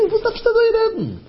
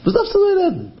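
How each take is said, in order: First: A high put-on voice, scolding; mock-scold him from way up high; high rebuking voice. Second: High rebuking voice. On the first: Storyteller voicing a rebuke, high and scolding. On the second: Retold or imitated. Repeated rebuke in story.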